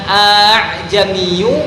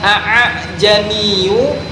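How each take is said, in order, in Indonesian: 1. Hamzah dilunakkan, tidak dihentikan penuh. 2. Hamzah diucapkan dengan henti penuh. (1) "kenapa dibaca a'jamiyu ... Karena kalimat tersebut termasuk hukum bacaan tashil" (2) "bukan a'jamiyu"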